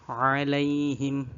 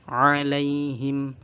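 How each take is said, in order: The two takes are said the same way.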